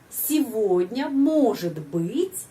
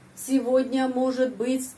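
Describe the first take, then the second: First: It is read with clearly stressed syllables. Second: It is read flat, with no stressed syllables. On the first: The speaker calls it right. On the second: The speaker calls it wrong.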